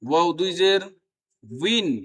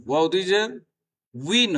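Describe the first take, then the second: No difference in how they are said.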